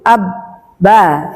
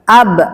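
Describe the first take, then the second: First: The b is released with an extra vowel. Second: The b stops closed with no vowel. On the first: The speaker calls it wrong. "jangan ada kelanjutannya lagi, abba, salah" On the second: The speaker calls it right. "dia kita matikan hurufnya"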